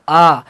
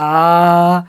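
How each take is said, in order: First: The vowel is held for a medium length. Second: The vowel is drawn out extra long. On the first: "अ से थोड़ा सा ज़्यादा आ" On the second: "आ से ज़्यादा आ, खींचना"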